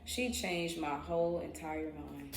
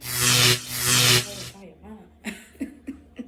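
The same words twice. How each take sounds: First: Said in the usual way. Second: Low slow drawn-out laughing stress; laughing emphasis. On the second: Real, not acted. How she changed her mind, slow laughing emphasis. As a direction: stretch it out and laugh.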